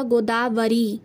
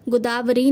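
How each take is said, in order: First: गोदावरी with o and long final ee, "go-daa-va-ree"; correct form. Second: गोदावरी with first vowel u, "gu-daa-vri"; wrong form. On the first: Teacher giving the correct word, गोदावरी as go-daa-varee. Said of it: "इसका शुद्ध रूप होगा". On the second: Teacher rejecting the wrong word, गोदावरी as gu-daavri. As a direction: say गोदावरी as 'gudaavri'. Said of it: "नहीं होता". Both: Shown as a demonstration.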